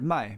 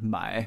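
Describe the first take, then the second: First: The pitch falls sharply from high to low. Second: The pitch dips low and then rises. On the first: It means to sell. "the word "mai" means to sell" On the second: It means to buy. "the word "mai" means to buy"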